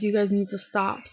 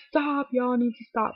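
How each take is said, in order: First: Said in the usual way. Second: Higher-pitched country twang; country accent. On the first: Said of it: "But she doesn't say it like that". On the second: Retold or imitated. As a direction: put on a mock country accent. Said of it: "doesn't say it like that, 'cause she's not, like, country".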